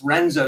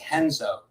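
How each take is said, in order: First: The name starts with an English R sound. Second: The name starts with an H sound. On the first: "Or if it's Renzo" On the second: "you say Henzo"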